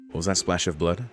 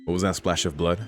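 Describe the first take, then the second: No difference in how they are said.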